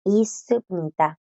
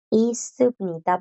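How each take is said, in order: First: Y subnita drawn out with the s sounds continuing; slow Korean repeat. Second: Y subnita said slowly, the sounds flowing on; slow Korean demo. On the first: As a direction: repeat Y subnita slowly as a model. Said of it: "Entonces, S, S, S". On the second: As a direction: let Y subnita run on slowly. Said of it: "el sonido simplemente continúa". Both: Shown as a demonstration.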